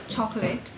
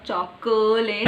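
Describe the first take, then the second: First: "chocolate" in two syllables, chok-lit; correct pronunciation. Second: "chocolate" stretched out with a full middle vowel, choc-o-late; drawn-out three-syllable "chocolate"; wrong pronunciation. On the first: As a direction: drop the middle vowel in "chocolate". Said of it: "it's chocolate". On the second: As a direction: overdo every syllable of "chocolate". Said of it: "it's not chocolate". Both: Shown as a demonstration.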